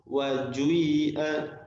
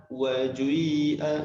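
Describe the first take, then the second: The two takes are said the same way.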